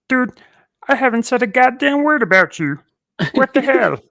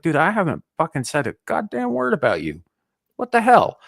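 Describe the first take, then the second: First: It is said in a Kermit the Frog voice. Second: It is said in his normal voice.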